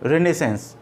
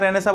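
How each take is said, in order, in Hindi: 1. शब्द का अंत एक साफ़ s ध्वनि से होता है। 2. शब्द स्वर पर खत्म होता है, अंतिम s के बिना।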